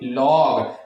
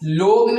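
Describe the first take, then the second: First: The vowel is an open 'aw' sound. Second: The vowel is a closed 'oh' sound. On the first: The speaker calls it right. "ने लॉग" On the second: The speaker calls it wrong. "लोग ने"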